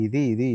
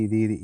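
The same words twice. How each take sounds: The two takes are said the same way.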